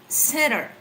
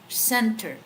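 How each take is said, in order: First: The T sound in the middle is dropped. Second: The T sound in the middle is clearly pronounced. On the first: "in American, center. ... the T is, you know, out" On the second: "we Filipino... we pronounce the T"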